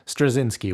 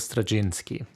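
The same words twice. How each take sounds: First: The name is said the American way. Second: The name is said the non-American way.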